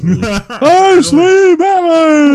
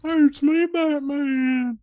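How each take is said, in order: First: High, loud goofy dopey shout; dumb guy voice. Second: High goofy dopey shout; dumb guy voice. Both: Pretend. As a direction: play Batman as a total doofus. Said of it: "a dumb guy voice".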